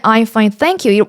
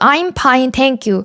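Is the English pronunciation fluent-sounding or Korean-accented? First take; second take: fluent-sounding; Korean-accented. First: It is said with smooth, native-like English pronunciation. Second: It is said with a strong Korean-style English pronunciation. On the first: The listener did not understand it. "처음에는 I'm fine, thank you 뭐 이런 식으로" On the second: The listener finally understood it. "이런 식으로 콩글리시 발음으로 바꿔서"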